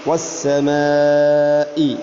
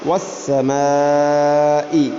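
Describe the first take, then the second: Both takes have the same delivery.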